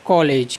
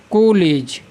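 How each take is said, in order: First: कॉलेज with the open English "aw" vowel; first vowel of कॉलेज between aa and o; English pronunciation. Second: कॉलेज said as "ko-lej"; closed long "o" in कॉलेज; o-vowel mispronunciation. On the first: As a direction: say कॉलेज as "kaw-lej". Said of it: "अंग्रेजी में इसका उच्चारण किस प्रकार से होता है". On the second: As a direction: turn कॉलेज into "koh-lej". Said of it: "या फिर हमें क्या लिखना पड़ता". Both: Shown as a demonstration.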